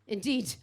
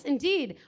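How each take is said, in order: First: Said in the usual way. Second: Put-on plummy posh English accent. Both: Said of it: "You suddenly became very posh there".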